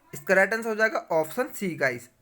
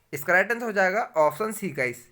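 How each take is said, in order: No difference in how they are said.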